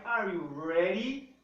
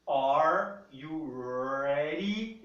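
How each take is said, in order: First: "ready" said slowly, its D tapped like a paulistano R; flapped D in ready. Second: "ready" said very slowly, with the D flapped like a quick R. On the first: Teacher repeats the phrase slowly with a flapped D. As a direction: tap the D in "ready" lightly. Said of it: "É o ready, ri, ri". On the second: Teacher slows "ready" right down for students. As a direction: stretch each word and tap the D in "ready". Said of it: "ele se transforma num R quando você lê". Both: Shown as a demonstration.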